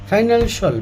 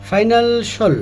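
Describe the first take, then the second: First: The ending is said as a reduced 'shol'. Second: The ending is said as a reduced 'shol'.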